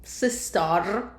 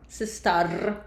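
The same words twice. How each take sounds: The two takes are said the same way.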